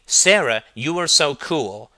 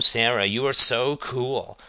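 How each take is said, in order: First: It is said in a sincere, genuine tone. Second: It is said in a mocking, sarcastic tone. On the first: The speaker truly means the compliment. "if I say honestly" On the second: The speaker means the opposite of the compliment. "and then I say sarcastically"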